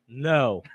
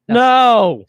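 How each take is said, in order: First: The word is said calmly and evenly. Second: The word is said forcefully and abruptly.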